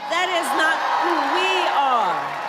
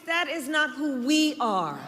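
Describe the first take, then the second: First: "That is not who we are" louder, "we" stressed; louder rally repeat. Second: Said in the usual way. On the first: Real, not acted. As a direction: build it into a loud refrain.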